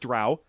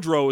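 First: The vowel rhymes with 'cow'. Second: The vowel rhymes with 'go'. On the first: The speaker calls it right. "it says it rhymes with cow" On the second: The speaker calls it wrong. "I know drow is wrong"

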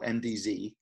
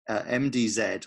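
First: The final letter is said the American way. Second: The final letter is said the British way.

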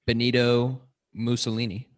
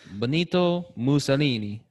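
First: It is said in a plain English accent. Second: It is said in an Italian-sounding accent.

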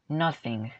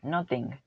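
First: The middle consonant sounds like a soft s. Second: The middle consonant sounds like a t. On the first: "haces este sonido de s, como tipo S, pero es una S suave" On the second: "nothing con la T"

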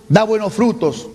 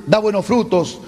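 No difference in how they are said.

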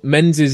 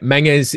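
First: The name is said with an English pronunciation. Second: The name is said with a Scottish pronunciation. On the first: "is the anglicized way of pronouncing it" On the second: "is the Scottish way of pronouncing it"

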